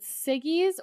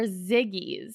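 First: Siggy's with a hissed S start; S sound. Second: Ziggy's with a buzzed Z start; Z sound. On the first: Co-host asks about Siggy's, stressing the S. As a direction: begin Siggy's with "sss". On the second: Co-host asks about Ziggy's, stressing the Z. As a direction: begin Ziggy's with "zzz". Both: Shown as a demonstration. Asks which pronunciation is right.

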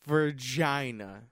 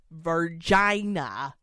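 First: Virginia drawn out slowly, level; repeated pronunciation. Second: Virginia drawn out slowly, rising; corrected pronunciation. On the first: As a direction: echo Virginia slowly and flatly. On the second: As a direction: say Virginia slowly, each syllable clear. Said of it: "No, no. Virginia". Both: Shown as a demonstration.

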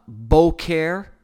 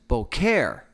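First: "boker" with the first syllable hit louder and drawn out; stress on first syllable. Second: "boker" with the weight on the second syllable; stress on last syllable. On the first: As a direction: say "boker" slowly as BO-ker. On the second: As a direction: say "boker" slowly as bo-KER. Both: Shown as a demonstration. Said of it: "the emphasis on the word itself".

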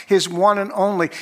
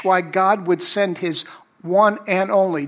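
First: "one" lifted and leaned on, then "and only" falls; stress on one. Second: "one" lifted and leaned on in "his one and only"; stress on one. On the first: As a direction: hit "one" firmly in "his one and only". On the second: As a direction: press on "one", let "and only" fall. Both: Shown as a demonstration. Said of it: "Notice the emphasis each time you read that".

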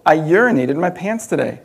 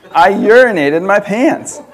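First: Said in the usual way. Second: Laughing through it, slow and louder; laughing repeat. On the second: Retold or imitated. Rereading the mom's autocorrect text, laughing slowly. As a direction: savour the absurd line with a laugh.

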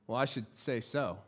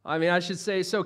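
First: Softer, lower dry aside; amused understatement, half to yourself; wry aside. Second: Said in the usual way. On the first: Real, not acted. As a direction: mutter it wryly under your breath.

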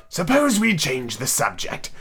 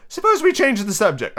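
First: Slow, drawn-out yawning voice; lazy, weary hare; yawning March Hare. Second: High, light suggestion; timid girl changing topic; Alice character voice. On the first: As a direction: drag the words through a yawn. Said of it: "interrupted, yawning". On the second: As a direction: propose it in a high girlish voice. First take, given to Alice. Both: Acted.

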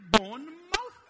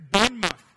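First: Bournemouth said as written, Bourne-mouth, higher and louder; spelled-out pronunciation. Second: Bournemouth said the English way, clipped to Bawn-muth; English pronunciation. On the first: Shown as a demonstration. Preacher insisting on his spelled-out Bournemouth, Bourne-mouth. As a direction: stress the full mouth in Bournemouth. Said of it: "It is clearly". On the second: Retold or imitated. Preacher mimicking how English people say Bournemouth, Bawn-muth. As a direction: say Bournemouth with a short swallowed end, Bawn-muth. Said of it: "Why do you say".

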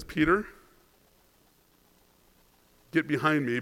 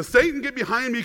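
First: Said in the usual way. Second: Satan hit high and hard; "Satan" said sharply and pitched high as a rebuke; stress on Satan. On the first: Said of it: "He says". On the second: Retold or imitated. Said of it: "he calls him Satan".

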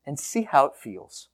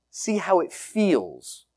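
First: Said in the usual way. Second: "See how it feels" drawn out slowly, each word given space; slow, lingering repeat. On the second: Real, not acted. Pastor inviting the congregation to feel the prayer, slow. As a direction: let "See how it feels" hang, unhurried and soft. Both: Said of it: "repeated invitation, second take slower".

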